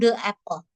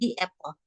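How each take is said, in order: First: 'The' is said with a short uh vowel. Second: 'The' is said with a long ee vowel. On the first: The speaker calls it wrong. "Kita nggak bilang the apple" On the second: The speaker calls it right. "Itu the dibacanya di. Kita bilang the apple"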